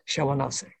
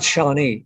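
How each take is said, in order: First: The name is said longer, with more syllables. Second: The name is said short, in two syllables. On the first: The speaker calls it right. "If you say it right, it's much prettier" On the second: The speaker calls it wrong. "That's not how you say it"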